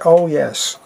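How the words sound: It is said in his everyday regional accent. "in my natural accent, I would say"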